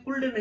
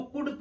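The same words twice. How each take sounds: First: कुल्ड with L before D; mistaken sounded L. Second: कुड with short U straight into D; silent L. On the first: Teacher warns off the misreading, कुल्ड with L. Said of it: "कुल्ड नहीं पढ़ते हैं". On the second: Teacher shows how could is read, कुड without L. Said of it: "हम इसको कुड पढ़ते हैं". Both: Shown as a demonstration.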